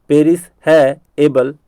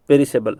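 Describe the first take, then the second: First: "पेरिस है एबल" piece by piece; broken into parts. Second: Said in the usual way. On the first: Shown as a demonstration. Teacher drilling the memory trick, broken into parts. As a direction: pause between the three parts of "पेरिस है एबल". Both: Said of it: "याद करवाने के लिए मैं कह रहा हूँ ऐसा".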